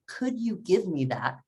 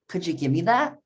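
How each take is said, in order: First: Each word is said separately and clearly. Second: The words run together with blended sounds. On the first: "speaking every word clearly" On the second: "they would most likely say"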